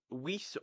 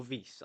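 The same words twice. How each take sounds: First: Weiss opened with an English W sound; W pronunciation. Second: Weiss opened with a German-style V sound; V pronunciation. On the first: Podcaster unsure of a player's name, Weiss with a W. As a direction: say Weiss slowly with a rounded W. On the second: Podcaster offering the other option for a name, Weiss with a V. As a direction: say Weiss slowly, starting on a V. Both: Shown as a demonstration. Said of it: "I don't know how you say his name".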